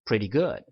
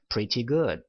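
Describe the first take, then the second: First: The t in pretty is softened into a flap. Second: The t in pretty is pronounced as a clear t. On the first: "pretty에서 t 발음을 한번 제가 연음을 한번 시켜서" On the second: "굴리지 않으시고 그냥 pretty good 이렇게 하셔도 됩니다"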